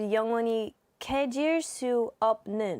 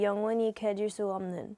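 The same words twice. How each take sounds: First: A p sound and slight break come before the last syllable. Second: The last word flows smoothly without a break. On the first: This is how someone reading the romanized spelling says it. "There would be like a slight break" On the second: This is how a Korean speaker says it. "when we you do Korean, it would just be"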